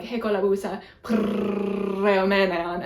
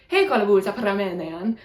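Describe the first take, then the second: First: "premenean" slowed by a very long trilled r; exaggerated rolled R. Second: "He kolabusa premenean" with pure vowels and tapped r; Greek play line. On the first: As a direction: stretch the r in "premenean" into a huge trill. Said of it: "make sure I got the rolled R". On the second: Retold or imitated. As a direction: recite "He kolabusa premenean" as practised stage Greek. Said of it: "say my line".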